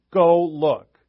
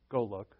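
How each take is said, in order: First: Louder "Go look." with a push on "Go"; loud command. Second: Calm, quieter go look. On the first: Jesus ordering the disciples loudly to go look. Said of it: "Or he could have said it loud". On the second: Jesus telling the disciples calmly to go look. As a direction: say "Go look." evenly, no push. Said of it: "he could have said it calmly". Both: Shown as a demonstration.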